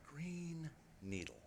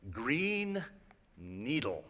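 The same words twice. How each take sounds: First: Soft spoken words. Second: Robot voice. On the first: Shown as a demonstration. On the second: Retold or imitated. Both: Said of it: "you're going to hear the voice say".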